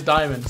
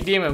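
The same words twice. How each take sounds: First: Said in the usual way. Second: Diamond said as "DEE-mond"; mispronounced Diamond. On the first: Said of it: "but I know it's Diamond". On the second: Real, not acted. Streamer owning up to a viewer's misread name, Diamond mispronounced "DEE-mond". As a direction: say Diamond with "dee" in place of "die". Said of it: "I keep calling you Diamond, but I know it's Diamond".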